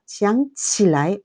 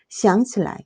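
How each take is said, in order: First: The last syllables keep their full tones. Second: The last syllables are light and toneless. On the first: It means wanting to get up. "원래 성조대로 읽으면 동목구조" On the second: It means to remember. "경성으로 읽으면 동보구조"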